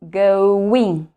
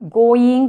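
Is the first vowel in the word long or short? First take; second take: long; short. First: The first vowel is a long, drawn-out O. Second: The first vowel is short, not a long O. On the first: The speaker calls it right. "but going" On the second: The speaker calls it wrong. "Not going"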